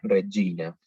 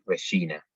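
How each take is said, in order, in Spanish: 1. La g se dice como una g italiana. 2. La g se dice a la manera española. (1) "la pronunciación correcta sería Regina" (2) "nosotros tendemos a pronunciarlo por cómo pronunciamos nosotros ese tipo de consonantes"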